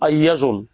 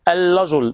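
First: The r sound is replaced by a y sound. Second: The r sound is replaced by an l sound. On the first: "ينطق الراء لاما أو ياء" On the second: "ينطق الراء لاما أو ياء"

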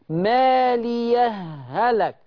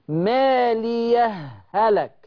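Both takes have the same delivery.

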